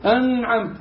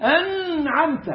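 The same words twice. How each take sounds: First: أنعمت with a clear separated ن before the ع. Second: أنعمت with the ن swallowed into the ع, slow and high; wrong pronunciation. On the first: Shown as a demonstration. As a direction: pronounce the ن in أنعمت fully. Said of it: "أنعمت دي إظهار". (إظهار النون) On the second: Retold or imitated. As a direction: slur the ن in أنعمت. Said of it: "ما تقولش أنعمت". (نطق خاطئ بلا إظهار)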